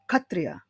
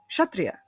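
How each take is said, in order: First: The word begins with a plain k sound. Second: The word begins with a ksh sound.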